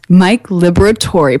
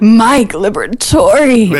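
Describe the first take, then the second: First: The name is said in a subdued way. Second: The name is said in an excited way.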